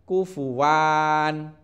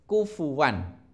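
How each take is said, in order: First: The wa vowel is drawn out long. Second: The wa vowel is short. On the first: The speaker calls it wrong. "Tidak boleh dibaca kufuwan" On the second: The speaker calls it right. "harus dibaca pendek"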